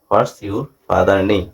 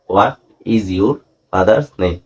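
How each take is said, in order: First: It is said quickly, with 'what's' contracted. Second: It is said slowly, with 'what is' in full.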